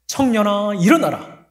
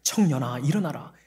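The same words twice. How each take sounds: First: Much higher and louder command; commanding call. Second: Said in the usual way. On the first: Acted. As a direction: call the dead to rise. 예수님 명령 재연. (높고 크게 명령하듯)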